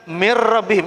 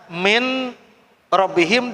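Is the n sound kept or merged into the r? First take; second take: merged; kept. First: The n merges into a doubled r sound. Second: The n is sounded separately before the r. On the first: The speaker calls it right. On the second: The speaker calls it wrong.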